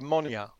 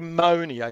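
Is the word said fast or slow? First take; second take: fast; slow. First: The word is said more quickly. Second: The word is said more slowly. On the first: The speaker calls it right. "You have to say it a bit faster" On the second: The speaker calls it wrong. "You don't say monia"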